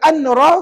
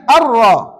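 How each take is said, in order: First: The n sound is pronounced before the r. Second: The n sound is merged into a doubled r. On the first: The speaker calls it wrong. "Jangan baca an-ra. Kalau baca an-ra, salah" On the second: The speaker calls it right. "Dia kena baca ar-ra. Masukkan tanwin ke dalam ra"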